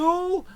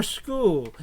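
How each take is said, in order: First: Shul with an opening SH; sh pronunciation. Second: School with a hard SK start; sk pronunciation. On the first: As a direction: say shul like "shool". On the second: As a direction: say school as "skool". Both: Shown as a demonstration. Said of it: "Is it shul or school?".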